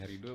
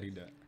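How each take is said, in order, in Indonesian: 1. Nama itu diakhiri dengan vokal o. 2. Nama itu diakhiri dengan vokal a. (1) "pakai O boleh" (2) "Pakai A boleh"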